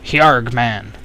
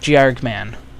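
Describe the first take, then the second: First: The name begins with an H sound. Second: The name begins with a J sound.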